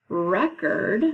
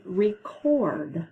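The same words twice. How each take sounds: First: "record" as REK-erd, first syllable strong; stress on first syllable. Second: "record" as ree-CORD, second syllable strong; stress on second syllable. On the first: Teacher presenting another homograph group, "record" stressed REK-erd. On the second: Teacher presenting another homograph group, "record" stressed ree-CORD. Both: Shown as a demonstration. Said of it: "another group of homographs".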